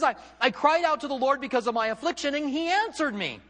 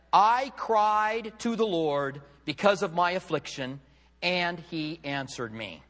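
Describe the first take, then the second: First: High, loud, astonished outburst; shocked. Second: Very slow, emphatic verse, settling at the end; deliberate scripture reading. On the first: Acted. Preacher voicing Jonah's prayer from the whale, shocked. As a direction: cry it out as if amazed God answered. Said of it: "with a little bit of a shock". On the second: Retold or imitated. Preacher reads Jonah's prayer to congregation, slow and deliberate. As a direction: read the verse out slowly, weighting each word. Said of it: "and he said".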